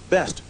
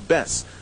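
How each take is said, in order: First: The final t sound is pronounced. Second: The final t sound is dropped.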